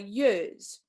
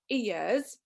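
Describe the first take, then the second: First: The word begins with a y sound. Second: The word begins directly with a vowel sound. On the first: "for me they are years" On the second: "they're not ears"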